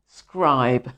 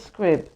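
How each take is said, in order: First: The vowel is long, rhyming with tribe. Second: The vowel is short, rhyming with crib. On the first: The speaker calls it right. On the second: The speaker calls it wrong.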